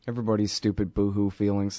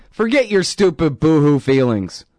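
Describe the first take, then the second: First: Said in the usual way. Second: Firm scolding of everyone's feelings; forceful dismissal. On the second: Real, not acted. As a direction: bark it out as a put-down. Repeats phrase, second time louder.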